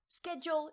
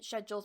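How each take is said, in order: First: It is said the American way, with a 'sk' sound. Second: It is said the British way, with a 'sh' sound.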